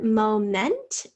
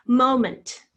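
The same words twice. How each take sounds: First: MOMENT as MO-MENT, second syllable clearly pronounced; full E in MOMENT. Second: MOMENT as MO-munt, loud on the first syllable; schwa in MOMENT. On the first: Teacher shows how some people say it, MOMENT with a full MENT. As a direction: say MOMENT with a true short E, like men. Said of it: "Some people say this word moment with". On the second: Teacher presents this week's word, MOMENT loudly with schwa ending. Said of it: "Schwa is in the second syllable". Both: Shown as a demonstration.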